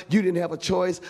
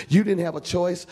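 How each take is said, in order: Both takes have the same delivery.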